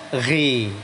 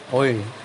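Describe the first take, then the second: First: The syllable is said with a thin, light sound. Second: The syllable is said with a thick, heavy sound. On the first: The speaker calls it wrong. "jangan ghi, ghi, ghi. Kalau begini tipis ya" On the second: The speaker calls it right. "Yang betul ya oi"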